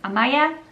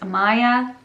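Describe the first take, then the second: First: It is said with a Slovak pronunciation, slightly shorter. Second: It is said with an English pronunciation. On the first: "when I say it in Slovakian, it's Amaya" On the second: "but in English it's Amaya"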